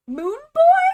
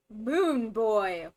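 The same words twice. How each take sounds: First: Very high, loud squeak of disbelief; shocked question. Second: Name said at normal pitch, falling at the end; falling statement. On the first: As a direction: pitch shooting way up into a loud question. Repeats the baffling name in disbelief. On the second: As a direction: state it, no question left in it. Same name repeated as a statement. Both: Real, not acted.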